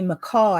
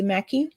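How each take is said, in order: First: The name is said the Australian way. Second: The name is said the American way. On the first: "but we say Mackay" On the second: "Americans say mister Mackey"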